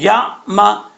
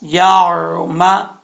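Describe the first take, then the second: First: There is a sudden catch in the middle. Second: It flows smoothly with no sudden catch. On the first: The speaker calls it wrong. "तो ये झटका हो जाए हो, हो जाएगा, तो ये गलत है" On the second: The speaker calls it right. "आइन के मखरज से ही अदा करना चाहिए"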